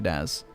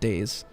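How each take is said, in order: First: The name is pronounced as 'Daz'. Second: The name is pronounced like the word 'days'. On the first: The speaker calls it right. "it's actually Daz" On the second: The speaker calls it wrong. "some people mispronounce my name and they call it Days"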